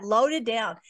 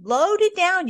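First: Loaded down, said again at normal pitch and level with a falling tune; calm repeat. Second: Loaded down, much higher and louder with the word Loaded hit hard; "Loaded down" punched high and loud on Loaded; emphatic repeat. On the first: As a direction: settle "Loaded down" back down gently. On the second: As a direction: land "Loaded down" like a proclamation. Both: Shown as a demonstration. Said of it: "Once more, I want you to hear that".

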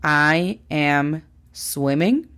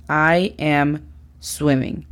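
First: "I am swimming" drawn out for learners; slow, clear teacher model; slow model sentence. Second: "I am swimming" slow and falling; slow, settled teacher model; slow confirmed model. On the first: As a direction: say "I am swimming" very slowly. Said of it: "¿es correcta la frase". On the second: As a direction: state "I am swimming" slowly as the answer. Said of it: "es correcta en inglés". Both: Shown as a demonstration.

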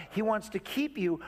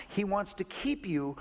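Both takes have the same delivery.

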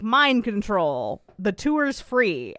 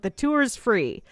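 First: Slow, commanding hypnotic order; mock mind control. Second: Slow, dazed repeat of The tour's free; mock entranced echo. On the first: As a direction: lay the spell on him slowly. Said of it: "And Fiona's like". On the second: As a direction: echo it like a hypnotized man. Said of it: "And the tour guide's like".

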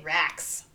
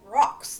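First: Rocks said as racks with a flat open a; Midwest racks. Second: Rocks with a rounded British o, as in rock; British-sounding rocks. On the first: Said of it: "And they say racks". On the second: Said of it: "You say it like you're British". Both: Retold or imitated.

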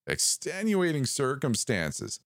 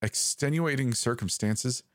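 First: Slow, high, drawn-out repeat; a sinister voice relishing the phrase; savoring the words. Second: Rising, unsure ask; a ranger fumbling for an excuse; hesitant question. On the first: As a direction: roll each word around like tasting it. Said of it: "as though tasting them". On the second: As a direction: offer the excuse warily. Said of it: "I said hesitantly". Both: A narrator's reading.

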